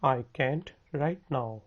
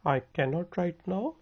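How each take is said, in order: First: The verb is said as one short contraction. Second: The verb is said in full as two words. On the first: This is how native speakers say it in speech. "बोलने में native speaker बोलते हैं" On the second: This is the form preferred in writing. "लिखने में बेहतर है"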